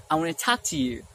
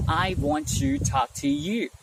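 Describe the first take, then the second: First: "wanna" run together in one flow; merged letters. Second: Slow, "want" and "to" kept apart; word-by-word. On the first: Teacher showing learners faster speech, merged words. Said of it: "simply say". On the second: Teacher showing learners the slower way, words separated. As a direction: separate every single word. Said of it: "Instead of saying". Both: Shown as a demonstration.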